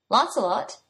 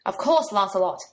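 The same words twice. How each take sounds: First: Dazed, blank question; stupidly. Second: Louder impatient snap; snapped. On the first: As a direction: sound a bit slow on the uptake. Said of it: "he said stupidly". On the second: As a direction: bite back at him, exasperated. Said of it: "she snapped back". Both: A narrator's reading.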